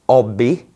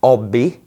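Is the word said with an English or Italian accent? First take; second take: Italian; Italian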